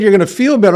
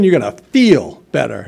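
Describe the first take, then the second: First: Said in the usual way. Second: "feel" drawn out and set apart from "better"; stress on FEEL. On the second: Retold or imitated. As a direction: lean long on the word "feel". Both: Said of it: "when I said you're gonna feel better, I mean".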